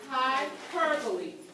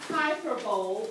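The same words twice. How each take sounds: First: The word is pronounced unlike its spelling. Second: The word is pronounced the way it looks. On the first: The speaker calls it right. "it is hyperbole" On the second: The speaker calls it wrong. "that is not hyperbole"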